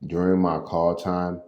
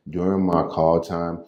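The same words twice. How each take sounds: The two takes are said the same way.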